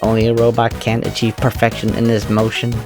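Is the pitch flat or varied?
flat. The pitch stays flat on one tone.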